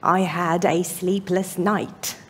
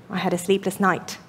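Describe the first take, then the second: First: The sentence is said slowly. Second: The sentence is said quickly. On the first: It sounds as though someone is being blamed. The speaker calls it wrong. "Otherwise, it sounds as though you're blaming somebody" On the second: It describes a bad night neutrally. The speaker calls it right. "Everything should be probably said uh, in a quick manner"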